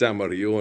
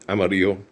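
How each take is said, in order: First: The name is said with Spanish pronunciation. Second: The name is said with English pronunciation. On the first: The speaker calls it right. "in Espanol" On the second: The speaker calls it wrong. "just completely butchered"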